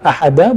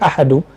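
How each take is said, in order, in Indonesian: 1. Kata ini berakhir dengan vokal 'a'. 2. Kata ini berakhir dengan vokal 'u'. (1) "boleh dibaca ahada ... Ahada jadi khabar kana" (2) "boleh dibaca ahadu ... ahadu menjadi padalnya"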